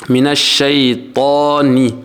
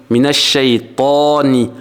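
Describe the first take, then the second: No difference in how they are said.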